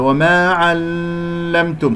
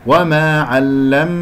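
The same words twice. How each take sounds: First: وما علمتم with qalqala on mim; wrong take. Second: وما علم with smooth flowing mim; correct take. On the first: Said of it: "خطأ". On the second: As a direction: let the mim of علم flow. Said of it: "ميم يجري فيها الصوت". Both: Shown as a demonstration.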